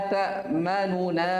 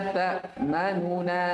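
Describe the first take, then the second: Both takes have the same delivery.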